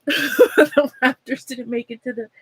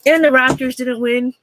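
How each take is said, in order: First: Laughing it out mid-sentence. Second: Said in the usual way. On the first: Real, not acted. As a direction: chuckle through the bad news. Laughs while repeating team loss.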